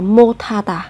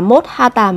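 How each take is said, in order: First: The final s and h merge into aspirated t. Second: The final s and h stay separate sounds. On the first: The speaker calls it right. "mà sẽ là 못하다" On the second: The speaker calls it wrong. "Không phải là 못하다"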